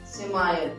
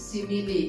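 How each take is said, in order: First: The word ends with a 'mile' sound. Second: The word ends with a 'lee' sound. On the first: The speaker calls it wrong. "इसको miss pronounce कहते हैं" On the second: The speaker calls it right. "इसे सिमिली कहना है"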